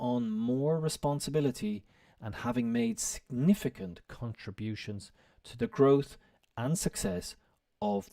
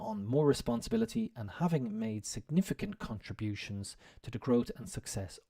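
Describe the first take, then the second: First: It is read at a slower, careful pace. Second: It is read at a quicker pace.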